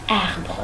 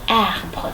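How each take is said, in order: First: It is said with the mouth nearly closed. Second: The same.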